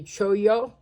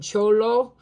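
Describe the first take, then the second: First: The double L is said as a Y sound. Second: The double L is said as an L sound. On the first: This follows the Spanish sounding of the letters. "if you're using the Spanish accent and sounding of the letters, it would be choyo" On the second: This is how many people commonly say it.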